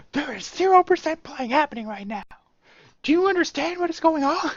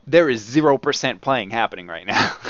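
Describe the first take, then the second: First: High, hammed-up parody of the warning; mock guard. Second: Louder, firm no-nonsense warning; stern guard. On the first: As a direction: relish the one-liner, camped way up. Repeating the line for fun. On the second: Retold or imitated. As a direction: lay down the law to the thief. Guard confronting the thief.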